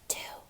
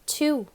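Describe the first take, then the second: First: It is whispered. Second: It is said in a normal voice.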